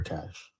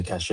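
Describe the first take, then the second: First: "cache" said as plain "cash"; "cache" pronounced KASH, in a single syllable; one-syllable cache. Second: "cache" said as "cash-AY"; "cache" in two syllables, rhyming with "sashay". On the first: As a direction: end "cache" on the "sh" sound. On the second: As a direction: end "cache" on an "ay" sound. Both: Shown as a demonstration. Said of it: "Would you say cache or cache?".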